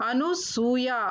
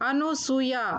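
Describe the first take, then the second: Both takes have the same delivery.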